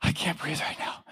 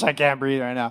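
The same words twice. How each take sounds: First: Whispered, out of breath; winded runner barely whispering; breathless whisper. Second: Said in the usual way. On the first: Retold or imitated. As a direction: gasp it out with no voice, winded. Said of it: "I'm like". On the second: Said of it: "then you're like".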